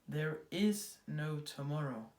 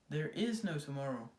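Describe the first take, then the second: First: It is said very slowly. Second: It is said at normal speed.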